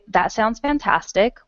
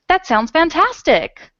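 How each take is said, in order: First: It is said in a calm, even voice. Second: It is said in a lively, excited voice. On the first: A plain statement. "with a period" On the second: A strong exclamation. "you would have to put an exclamation point on the end"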